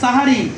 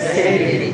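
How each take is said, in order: First: The first vowel is an open a sound. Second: The first vowel is an e sound. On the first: This is the original Arabic form. The speaker calls it right. "এটা শব্দ হচ্ছে সাহারি" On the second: This is how Urdu speakers say it. The speaker calls it wrong. "Urdu ভাষায় জায়গা করে ফেলছে"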